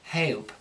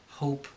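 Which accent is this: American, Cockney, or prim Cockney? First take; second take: prim Cockney; American. First: The vowel sounds like a prim E-A-H glide. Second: A plain American long O vowel. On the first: "they go a little bit too proper with it" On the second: "Americans will say"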